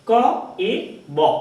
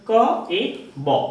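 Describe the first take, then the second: Both takes have the same delivery.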